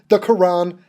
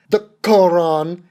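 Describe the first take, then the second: First: Said in the usual way. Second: "Quran" drawn out slowly with a full first vowel; "Quran" carefully over-pronounced, rising at the end; emphatic pronunciation. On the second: Shown as a demonstration. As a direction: say "Quran" slowly, both syllables given full weight. Repeats word with careful pronunciation.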